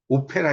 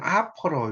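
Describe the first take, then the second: First: The word starts with a rounded 'oh' vowel. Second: The word starts with an open 'ah' vowel. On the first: The speaker calls it wrong. "오페라 이렇게 읽으면 콩글리시입니다" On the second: The speaker calls it right. "발음을 할 때는 아퍼라 이렇게 읽어요"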